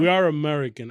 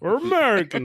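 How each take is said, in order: First: It is said in the speaker's plain voice. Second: It is said in an exaggerated American accent.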